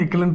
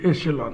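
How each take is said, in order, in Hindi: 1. बीच का व्यंजन k ध्वनि है। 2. बीच का व्यंजन sh ध्वनि है। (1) "बहुत से लोग इकलन इकलन पढ़ते हैं, इकलन नहीं है" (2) "ये एशेलॉन है"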